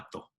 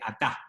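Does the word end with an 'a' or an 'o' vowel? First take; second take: o; a. First: The last vowel is a rounded 'o'. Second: The last vowel is an open 'a'. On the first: The speaker calls it wrong. "no ató" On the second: The speaker calls it right. "en hebreo moderno se dice atá"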